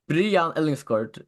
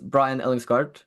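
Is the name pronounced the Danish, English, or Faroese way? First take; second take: Faroese; English. First: The name is pronounced the Faroese way. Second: The name is pronounced the English way. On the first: "is how I pronounce it in Faroese" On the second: "if you're gonna Englishise it"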